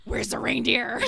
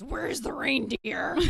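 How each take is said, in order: First: Loud, high frantic demand; crazy voice. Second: High, loud, slow frantic demand; mom's wild-eyed cry for the reindeer; crazy voice. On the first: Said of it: "And then my mom goes". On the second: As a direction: play the flustered mom gone wild. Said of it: "really sort of crazy voice". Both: Retold or imitated.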